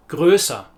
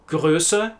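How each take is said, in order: First: "größer" falling onto an open "ah"; open -er ending. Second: "Größe" with a light final "uh", rising; short e ending. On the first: Teacher repeating the contrast, open -er ending. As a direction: widen the last vowel of "größer", no R. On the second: Teacher repeating the contrast, short final e. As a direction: keep the end of "Größe" short and neutral. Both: Shown as a demonstration. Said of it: "to distinguish between".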